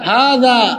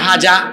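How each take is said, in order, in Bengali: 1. মাঝের ব্যঞ্জনটি একটি নরম 'th' ধ্বনি। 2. মাঝের ব্যঞ্জনটি একটি 'z' ধ্বনি। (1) "জালের উচ্চারণ জিব্বার আগা আর দাঁতের আগায় লাগিয়ে বলতে হয় হাদা" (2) "আর সে বলে হাজা"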